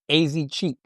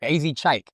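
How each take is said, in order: First: The last part rhymes with 'cheek'. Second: The last part rhymes with 'like'. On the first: The speaker calls it wrong. "it looked like Ass Cheek. That's what I always thought it was" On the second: The speaker calls it right. "So I guess that's how you really say it"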